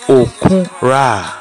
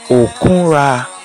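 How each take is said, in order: No difference in how they are said.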